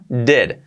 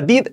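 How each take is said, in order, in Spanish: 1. La vocal suena cercana a un sonido 'eh'. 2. La vocal es un sonido 'ee' tenso y claro. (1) "sería dead. La I casi, casi como una" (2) "cuidado que no sea did"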